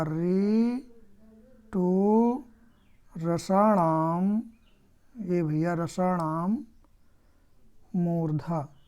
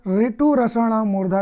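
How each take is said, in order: First: Very slow, drawn-out syllables; slow dictation. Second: Said in the usual way. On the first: Shown as a demonstration. Teacher dictating the retroflex sutra to students, slow chant-like dictation. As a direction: stretch each word of the sutra.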